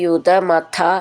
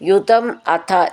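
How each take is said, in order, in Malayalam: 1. ഈ രണ്ട് വാക്കുകളും ചേർത്ത് ഒറ്റ വാക്കായിട്ടാണ് പറയുന്നത്. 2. ഈ രണ്ട് വാക്കുകളും വേറെ വേറെ വാക്കുകളായിട്ടാണ് പറയുന്നത്.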